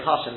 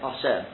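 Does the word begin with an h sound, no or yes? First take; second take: yes; no. First: The word starts with an h sound. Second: The word starts without an h sound. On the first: "Instead of saying, let's say Hashem" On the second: "they don't say hey. They say aleph"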